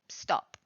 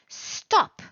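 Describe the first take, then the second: First: It is said flatly, with little emotion. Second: It is said loudly, as an urgent warning.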